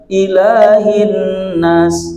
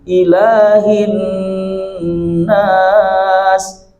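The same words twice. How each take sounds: First: The nasal n sound is cut short. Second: The nasal n sound is held long. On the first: The speaker calls it wrong. "tidak dibaca langsung" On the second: The speaker calls it right. "tahan dulu"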